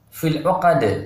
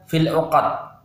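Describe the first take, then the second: First: The final d ends with a bouncing release. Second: The final d stops flat with no bounce. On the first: The speaker calls it right. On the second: The speaker calls it wrong.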